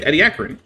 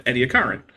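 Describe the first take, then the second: First: Ediacaran as ed-ee-AK-uh-run; second pronunciation. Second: Ediacaran as ed-ee-uh-KAR-un; first pronunciation. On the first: Host offering the other way to say a fossil term, Ediacaran as ed-ee-AK-uh-run. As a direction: stress the AK in Ediacaran. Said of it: "I can't figure out how to say it". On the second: Host offering one way to say a fossil term, Ediacaran as ed-ee-uh-KAR-un. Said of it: "I hear people say it both ways". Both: Shown as a demonstration.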